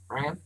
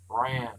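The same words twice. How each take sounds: First: The vowel is short, like in bran cereal. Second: The vowel is drawn out and longer sounding. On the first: The speaker calls it wrong. "It is not Bran like a breakfast cereal" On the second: The speaker calls it right. "It is longer sounding"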